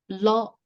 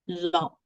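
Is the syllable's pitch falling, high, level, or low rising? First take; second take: high; falling. First: The pitch stays high throughout. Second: The pitch falls from high to low. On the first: It means hit. "the high tone of the word" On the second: It means hand. "the falling tone"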